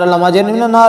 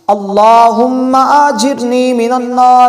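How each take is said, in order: First: It is recited quickly and carelessly. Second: It is recited slowly and reverently.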